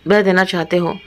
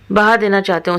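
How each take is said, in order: First: बह said short as /be/, a slip; misread word. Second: Said in the usual way. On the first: A narrator's reading. Misreading बह while reading the story aloud. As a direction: narrator stumbles reading बह for बहा.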